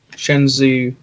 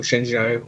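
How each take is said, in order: First: Shenzhou ending in a "zoo" sound; alternative pronunciation. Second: Shenzhou with a soft "zh" and an "oh" ending; alternative pronunciation. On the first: Guest unsure of the ship's name offers one version, Shenzhou said "shen-zoo". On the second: Guest unsure of the ship's name tries another version, Shenzhou said "shen-zhoh". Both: Shown as a demonstration. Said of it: "however you wanna call it".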